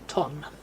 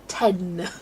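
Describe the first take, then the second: First: The ending has a rounded 'o' vowel. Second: The ending has an 'e' vowel, strongly emphasized. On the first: The speaker calls it wrong. "they still spell it T O N" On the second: The speaker calls it right. "I go ten. Like, overemphasize it"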